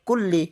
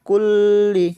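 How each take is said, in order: First: The doubled l is passed over quickly. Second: The voice stops and holds on the doubled l. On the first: The speaker calls it right. "তাড়াতাড়ি" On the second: The speaker calls it wrong. "এভাবে বললে কিন্তু ভুল হয়ে যাবে"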